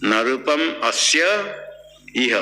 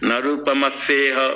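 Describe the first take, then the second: First: The last two words are split apart. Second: The last two words are joined into one. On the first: The speaker calls it wrong. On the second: The speaker calls it right.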